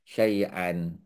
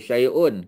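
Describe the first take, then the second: First: The word ends with an 'an' sound. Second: The word ends with an 'un' sound. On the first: The speaker calls it right. "kita baca syai' syai'an" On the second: The speaker calls it wrong. "kita tak baca syai'un"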